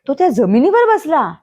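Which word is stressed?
जमिनीवर. The stress is on the word जमिनीवर.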